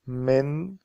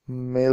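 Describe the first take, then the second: First: The final n sound is clearly pronounced. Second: The final n sound is left out. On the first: "it's better to pronounce it like من" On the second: "Now let's drop the N sound"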